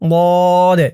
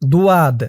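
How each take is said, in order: First: No w-glide follows the first consonant. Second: A w-glide follows the first consonant. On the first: The speaker calls it right. "বলতে হবে" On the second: The speaker calls it wrong. "আপনারা অনেকে বলেন দুয়াদ"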